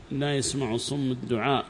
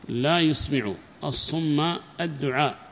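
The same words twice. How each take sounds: First: "يسمع" said yasmaʕ, with a-vowels; "الصم" ending in u, as the subject; plain vowel reading. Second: "يسمع" said with u then i, yusmiʕu; "الصم" ending in a, ṣumma, as the object; careful, spaced-out yusmiʕu for "يسمع"; variant vowel reading. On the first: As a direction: say "يسمع" as yasmaʕ, unstressed and low. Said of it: "وضمها وكسر الميم". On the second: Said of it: "قرأ ابن عامر بالتاء وضمها". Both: Shown as a demonstration.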